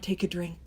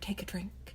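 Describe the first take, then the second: First: It is said somewhat louder than a whisper. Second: It is said in a quiet whisper.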